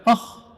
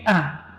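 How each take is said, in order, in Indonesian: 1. Vokalnya tebal dan membulat. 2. Vokalnya tipis dan terbuka. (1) "bukan oh" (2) "a tipis"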